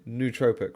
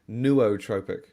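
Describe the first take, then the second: First: The first part is one long 'noo' vowel. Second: The first part splits into 'no' plus 'o'. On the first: The speaker calls it right. "I've always said nootropic, right? New, like N O O, new" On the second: The speaker calls it wrong. "They pronouncing the O's in separate ways. They're saying no, and then they're pronouncing the second O"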